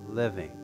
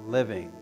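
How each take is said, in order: Both takes have the same delivery.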